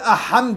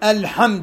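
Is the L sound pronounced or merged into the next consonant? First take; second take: merged; pronounced. First: The L is dropped into a doubled H. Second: The L sound is clearly pronounced. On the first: The speaker calls it wrong. "ما أقول أحمد، غلط" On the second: The speaker calls it right. "أقول الحمد"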